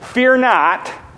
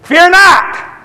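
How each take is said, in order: First: It is said softly, in a plain voice. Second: It is said very loudly, like thunder.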